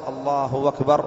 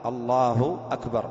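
First: "الله أكبر" linked as "اللهُ وَكبر"; "allaahu-wakbar", no break before "أكبر"; joined with waw. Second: Slow "الله أكبر", a small break before "أكبر"; "allaahu, akbar" with the words kept apart; separated hamza. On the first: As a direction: run "الله" into "أكبر" through a w. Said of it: "لو وصل". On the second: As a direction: pause after "الله", then a clean hamza on "أكبر". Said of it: "أنت حاول أن تقول". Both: Shown as a demonstration.

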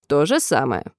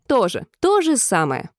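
First: Low, matter-of-fact answer; the first twin's low-voiced retort; low-pitched reply. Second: Eager confirmation, pitch lifted. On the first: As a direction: answer in a lowered voice. First twin gives the answer. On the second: Second twin echoes his brother. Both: A narrator's reading.

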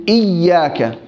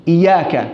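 First: "إياك" with a held double y, "iyyaaka"; careful "iyyaaka" for "إياك"; with shadda. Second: "إياك" with a short single y, "iyaka"; without shadda. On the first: Shown as a demonstration. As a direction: slowly lean on the doubled y in "إياك". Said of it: "في شدة". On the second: Retold or imitated. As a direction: say "إياك" quickly, no doubling. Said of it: "بدون شدة".

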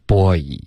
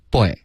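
First: Put-on boy as rounded "bo" sliding into a full "yi"; correct glide. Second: Put-on boy said as "bway", with a "way" sound creeping in; common mispronunciation. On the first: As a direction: glide boy clearly through to "ee". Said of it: "然后再滑到一". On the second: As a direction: show the wrong boy, ending in "ay". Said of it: "大家经常喜欢发成boy". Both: Shown as a demonstration.

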